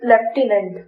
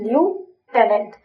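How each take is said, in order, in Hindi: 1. पहला अक्षर 'lef' जैसा सुनाई देता है। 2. पहला अक्षर 'lyoo' जैसा सुनाई देता है। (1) "if you will pronounce it like लेफ्टिनेंट" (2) "मैंने इसको कैसे याद किया था"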